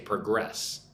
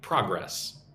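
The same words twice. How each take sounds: First: It is pronounced as the verb form. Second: It is pronounced as the noun form. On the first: The word names an action. "If it's a verb, you say progress" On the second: The word names a thing. "If it's a noun, you say progress"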